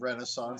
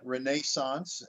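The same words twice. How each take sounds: First: It is said with an American pronunciation. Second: It is said with a non-American pronunciation. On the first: This is how people in America say it. "as we say in America" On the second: This is how the other host says it. "renaissance instead of"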